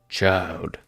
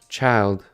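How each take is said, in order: First: It is said in a put-on godlike voice. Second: It is said in an ordinary narrating voice. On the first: The speaker calls it right. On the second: The speaker calls it wrong.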